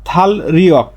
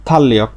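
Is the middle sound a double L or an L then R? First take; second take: L then R; double L. First: The middle is an L followed by an R. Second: The middle is a long double L sound. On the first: The speaker calls it wrong. "এর স্বাভাবিক উচ্চারণটা হচ্ছে থাল রিয়ক" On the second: The speaker calls it right. "কিন্তু সঠিক উচ্চারণ থাল্লিয়ক"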